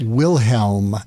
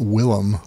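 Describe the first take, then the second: First: The name has an h sound before the ending. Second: The name has no h sound before the ending. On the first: The speaker calls it right. "it's it's Wilhelm, H E L M" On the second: The speaker calls it wrong. "not Willem"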